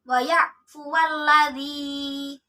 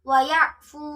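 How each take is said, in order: First: The final sound takes a short vowel into the next word. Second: The word ends on a stopped, vowelless final sound. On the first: The reading continues without pausing. "apabila dibaca wasol, wawunya dibaca pendek" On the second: The reading pauses at this word. "jika dibaca waqaf, wawunya dibaca sukun"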